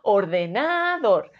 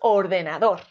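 First: The stress is on the third syllable. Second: The stress is on the fourth syllable. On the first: The speaker calls it wrong. "Si fuese na" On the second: The speaker calls it right. "Y si es dor"

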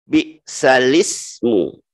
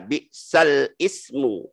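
First: The lam links straight into the vowel, no glottal stop. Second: A glottal stop separates 'ismu' from the lam. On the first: The speaker calls it right. "kasrah di hamzah itu dipindahkan ke lam" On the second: The speaker calls it wrong. "jangan dibaca bi'sal ismu"

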